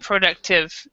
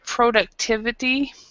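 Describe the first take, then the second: First: The word's last part is swallowed. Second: The word is said with its full ending. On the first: The speaker calls it wrong. "you didn't say the last part" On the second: The speaker calls it right. "instead of productivity"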